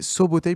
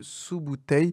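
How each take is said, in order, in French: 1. Les premières voyelles se prononcent 'o'. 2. Les premières voyelles se prononcent 'oo'. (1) "la bonne prononciation, c'est Sobotei" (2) "plutôt que Sous-Bouteille"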